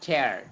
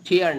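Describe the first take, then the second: First: The vowel sounds like 'air'. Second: The vowel sounds like 'ear'. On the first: The speaker calls it right. "ঠ্যারের মতো" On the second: The speaker calls it wrong. "এটা কিন্তু টিয়ার না"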